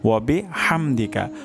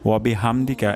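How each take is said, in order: First: The h comes from deep in the throat. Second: The h is a plain, light breath. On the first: The speaker calls it right. "সঠিক উচ্চারণটি হবে" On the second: The speaker calls it wrong. "এটা ভুল উচ্চারণ"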